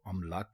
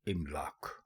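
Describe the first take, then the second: First: The word begins with an 'a' vowel. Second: The word begins with an 'i' vowel. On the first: The speaker calls it wrong. "गलत कहेंगे तो अमलाक कहेंगे" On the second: The speaker calls it right. "दुरुस्त लफ्ज़ है इमलाक"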